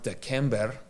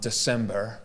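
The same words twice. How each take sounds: First: It is said with an ancient Latin pronunciation. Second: It is said with modern English pronunciation. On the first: This is how the month was said originally. "It would have been pronounced December" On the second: This is how the month is said today. "we say um, December"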